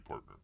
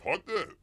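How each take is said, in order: First: Said in the usual way. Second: "partner" high, dropping the R's; Cockney "partner" as PAHT-nuh, questioning; mock British accent. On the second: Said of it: "they don't say partner".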